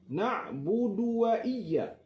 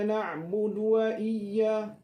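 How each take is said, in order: First: The vowel in 'du' is said with rounded lips. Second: The vowel in 'du' is said without rounded lips. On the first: The speaker calls it right. "Muncung mulut, da dhammah du" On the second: The speaker calls it wrong. "Yang salah macam mana?"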